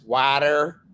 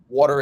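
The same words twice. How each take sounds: First: The word is said with an upstate New York accent. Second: The word is said with a plain, neutral accent.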